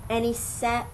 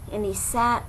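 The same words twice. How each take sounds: The two takes are said the same way.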